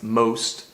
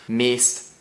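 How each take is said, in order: First: The vowel sounds like 'oh'. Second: The vowel sounds like 'ee'. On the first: This is the English pronunciation. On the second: This is the Scots pronunciation.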